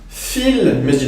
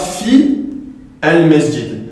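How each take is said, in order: First: Fi links straight onto the l sound. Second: A separate a vowel is said before l. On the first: The speaker calls it right. "on fait la liaison directement fi directement sur le lem" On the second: The speaker calls it wrong. "on ne dira pas fi al masjid"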